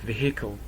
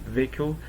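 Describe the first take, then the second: First: It is said with a Scottish pronunciation. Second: It is said with a standard pronunciation. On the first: "Some places like Scotland, they speak this way. They pronounce it vehicle" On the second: "We say vehicle"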